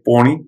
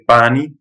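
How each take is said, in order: First: "poni" with a rounded "aw" vowel; full-mouth pronunciation. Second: "pani" with an open, front "a"; empty-mouth pronunciation. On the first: Quoting other Gujarati friends, full-mouth "poni". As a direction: fill the mouth on "poni", like "pawni". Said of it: "it's more full mouth". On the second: Quoting Gujarati friends' word for water, empty-mouth "pani". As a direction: say "pani" light, vowel forward as in "pan". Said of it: "pani is empty mouth". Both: Shown as a demonstration.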